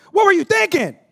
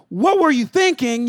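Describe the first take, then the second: First: Higher and louder exasperated yell; mock yell of an exasperated father; mock angry God. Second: Slow, scolding parent's question; slow, exasperated dad scolding his son; scolding father. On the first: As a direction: blast the question like a fed-up father. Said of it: "He don't look at us and go". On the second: Retold or imitated. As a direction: drag out the rebuke to a son. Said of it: "Instead of saying".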